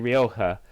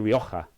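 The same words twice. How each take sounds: First: It is said the American English way. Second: It is said the Spanish way, with guttural h.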